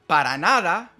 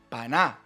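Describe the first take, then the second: First: Every syllable is said separately and in full. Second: Syllables are dropped and the words run together.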